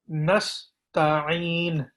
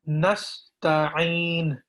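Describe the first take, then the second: Both takes have the same delivery.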